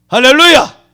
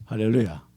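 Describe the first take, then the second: First: 할렐루야 called out higher and louder; loud hallelujah. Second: 할렐루야 said low and soft, trailing down; soft hallelujah. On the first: Preacher prodding a silent congregation, louder 할렐루야. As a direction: call out 할렐루야 to rouse an amen. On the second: Preacher murmuring 할렐루야 to the congregation, soft and low. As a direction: murmur 할렐루야 quietly with a falling end. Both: Real, not acted. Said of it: "왜 아멘을 안 해?".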